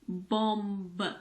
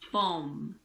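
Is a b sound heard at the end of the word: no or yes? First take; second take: yes; no. First: A b sound is heard after the m. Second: The word ends on the m sound. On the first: The speaker calls it wrong. "It's not bomb" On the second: The speaker calls it right. "The last sound is M. So just pretend that the B isn't there"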